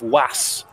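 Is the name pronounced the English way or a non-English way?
non-English. The name is said with a non-English pronunciation.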